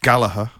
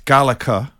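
First: The middle g is not pronounced. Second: The middle consonant is a throaty ch. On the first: "If you're Irish, ... We don't do the G" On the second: "If you're from Scotland, ... Gallagher has a C in it"

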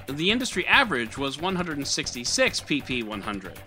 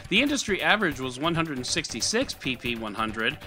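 No difference in how they are said.

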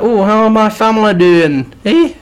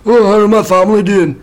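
First: It is said in an exaggerated put-on character voice. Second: It is said in a plainer, less exaggerated voice.

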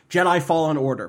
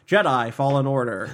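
First: The title flows as one natural name. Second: The title sounds oddly split, like 'fall in order'. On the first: It is a real title. The speaker calls it right. "it would read as a real like thing for me" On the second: The announcer seemed to garble the title. The speaker calls it wrong. "the way he just said it was like"

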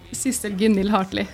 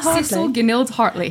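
First: The name is said with Norwegian pronunciation. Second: The name is said with English pronunciation. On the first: "Når du skal introdusere deg selv, hva sier du da?" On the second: "i England så var det jo litt sånn"

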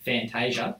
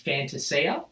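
First: The name is said with Australian pronunciation. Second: The name is said with Italian pronunciation. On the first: "the Australian Fantasia type thing" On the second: "the traditional Italian way is Fantasia"

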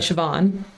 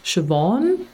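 First: The name is said in the speaker's plain way. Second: The name sounds like a put-on accent. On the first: This is how the speaker habitually says the name. The speaker calls it wrong. "I would say Siobhan" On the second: This is how others say the name should be said. The speaker calls it right. "I've been told it's Siobhan. But that sounds like I'm putting on an accent"

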